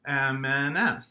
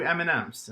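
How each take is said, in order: First: "M and M's" slowly in three loud beats; syllable by syllable. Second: Said in the usual way. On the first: Shown as a demonstration. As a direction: count out each syllable of "M and M's". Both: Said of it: "that has three syllables".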